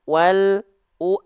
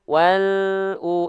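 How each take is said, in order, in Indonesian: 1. Bunyinya berhenti sebentar di antara L dan U. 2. L langsung mengalir ke U. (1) "jangan sampai" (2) "elnya terus jalan, nggak putus"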